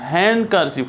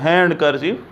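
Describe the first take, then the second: First: The d sound is silent. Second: The d sound is pronounced. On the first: The speaker calls it right. "डिसाइलेंट है" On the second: The speaker calls it wrong. "ना कि"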